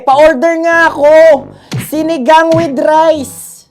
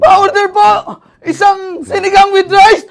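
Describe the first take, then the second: First: It sounds furious, like wanting to hurt someone. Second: It sounds panicked, like fleeing a zombie.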